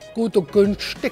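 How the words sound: Spoken in a Swabian German accent. "Oder im Schwäbischen"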